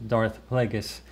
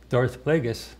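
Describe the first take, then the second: Both takes have the same delivery.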